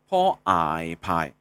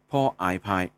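First: 排 spelled out on a low, sinking tone; fourth tone demonstration. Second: 拍 spelled out and held on a mid level tone; third tone demonstration. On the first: Teacher blending sounds for learners, 排 in low fourth tone. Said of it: "找一下第四声". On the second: Teacher blending sounds for learners, 拍 in level third tone. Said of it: "来找出第三声". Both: Shown as a demonstration.

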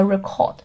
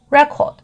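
First: Record as the verb re-CORD; light start, weight on CORD in record; stress on second syllable. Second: Record as the noun REC-ord; stress on first syllable. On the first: Teacher contrasting verb with noun, record stressed at the end. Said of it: "重音在后面". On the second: Teacher contrasting noun and verb, record stressed at the front. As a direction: hit REC at the start of record. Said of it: "重音在前面". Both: Shown as a demonstration.

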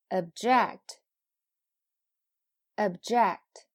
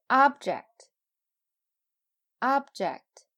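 First: "object" with schwa first, loud JECT; "object" as a verb: ob-JECT, said twice; verb stress on second syllable. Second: "object" with loud, high OB, falling on ject; "object" as a noun: OB-ject, said twice; noun stress on first syllable. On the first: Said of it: "后边是动词". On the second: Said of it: "前面是名词，后边是动词". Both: Shown as a demonstration.

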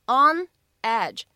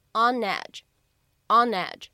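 First: Said in the usual way. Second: "on edge" linked as "o-nedge"; "on edge" as one joined word; linked reading. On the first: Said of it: "再往后面看，on edge". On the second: Shown as a demonstration. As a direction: slide the n of "on" into "edge". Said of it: "可以选择做一个连读".

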